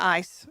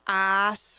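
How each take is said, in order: First: The vowel is short and plain, without a drawl. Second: The vowel is stretched out in a Southern drawl.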